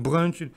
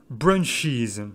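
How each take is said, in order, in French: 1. Le mot se termine sans syllabe supplémentaire. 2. Le mot se termine par une syllabe supplémentaire. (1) "il faut surtout pas le prononcer à la française" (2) "on ajoute une syllabe supplémentaire. Et c'est pour ça qu'on le prononce"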